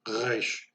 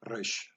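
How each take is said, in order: First: The R is a rough sound from the throat. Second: The R is a rolled trill at the front. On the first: "pronounced back of the throat. Ugh. Almost like you're gargling salt water" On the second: "resh has a more of a trill sound, almost like a Spanish"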